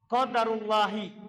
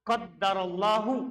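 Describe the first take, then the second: First: It has 'u' after qadar and ends in 'i'. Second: It has 'a' after qadar and ends in 'u'. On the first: It is the decree of God. "tapi Allahnya dibaca kasrah" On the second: God has decreed it. "Kalau baca qadaro berarti Allahnya dibaca dhammah"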